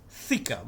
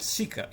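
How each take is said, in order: First: The word begins with a th sound. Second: The word begins with an s sound. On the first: The speaker calls it right. "it's Thika" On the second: The speaker calls it wrong. "It is actually not Sika"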